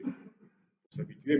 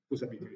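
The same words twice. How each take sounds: First: "Faut s'habituer" stretched out slowly; slow, drawn-out repeat. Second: Said in the usual way. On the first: Shown as a demonstration. Teacher repeating to students, slowed down. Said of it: "mais ça viendra". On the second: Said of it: "Faut s'habituer, mais ça viendra".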